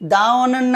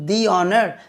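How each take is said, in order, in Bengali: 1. আর্টিকেলটি ছোট 'uh' স্বরধ্বনি দিয়ে বলা হয়। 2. আর্টিকেলটি লম্বা 'ee' স্বরধ্বনি দিয়ে বলা হয়। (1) "দা অনার না" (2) "কিন্তু দি অনার"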